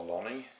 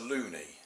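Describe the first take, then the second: First: The first vowel sounds like in 'lot'. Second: The first vowel sounds like in 'moon'. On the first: The speaker calls it wrong. "it's not a lonnie" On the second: The speaker calls it right. "it's a loonie"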